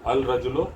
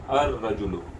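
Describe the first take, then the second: First: It begins with 'al', and the 'l' is heard. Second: It begins with 'ar', and no 'l' is heard. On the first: The speaker calls it wrong. "अल रजुलो नहीं कहा जाएगा" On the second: The speaker calls it right. "अब इसको क्या कहा जाएगा?"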